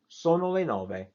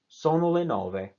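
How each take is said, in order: First: The pitch stays level throughout. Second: The pitch stays level throughout.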